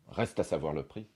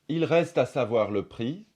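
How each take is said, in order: First: The phrase begins directly with 'reste'. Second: The phrase begins with 'il'.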